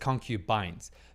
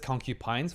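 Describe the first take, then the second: First: The word ends with a 'bines' sound. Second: The word ends like 'porcupines'. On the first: The speaker calls it right. "I know it's concubines" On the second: The speaker calls it wrong. "I've pronounced as concubines ... they think about ... porcupines"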